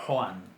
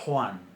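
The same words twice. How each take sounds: First: The first consonant is harsh, far back in the throat. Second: The first consonant is harsh, far back in the throat.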